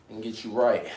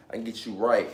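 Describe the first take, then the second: No difference in how they are said.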